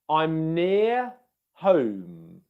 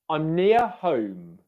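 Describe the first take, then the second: First: The phrase is said at a slower pace. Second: The phrase is said at a quicker pace.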